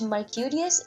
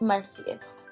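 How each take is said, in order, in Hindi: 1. इस नाम में चार शब्दांश हैं, k की ध्वनि के साथ। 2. इस नाम में तीन शब्दांश हैं, s की ध्वनि के साथ। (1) "मैंने मर्क्यूरियस को" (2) "आई प्रोनाउंस मर्क्यूरियस एज मर्सियस"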